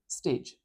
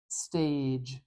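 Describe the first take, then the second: First: The vowel is short and clipped. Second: The vowel is stretched out long. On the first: The speaker calls it wrong. "I'm not saying stage" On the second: The speaker calls it right. "I'm kind of sitting on that sound for a moment"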